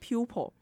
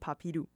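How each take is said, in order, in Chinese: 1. 用标准的英语发音。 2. 用日式的音节和元音发音。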